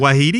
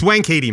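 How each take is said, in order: First: The first syllable is a soft 'wah' sound. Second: The first syllable is a clear 'wank' sound. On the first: The rude-sounding part is avoided. The speaker calls it wrong. "They go Wahidi" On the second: It follows the native pronunciation. The speaker calls it right. "It's Wankhede, mate"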